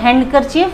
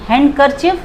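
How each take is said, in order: First: The d is sounded in the word. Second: The same.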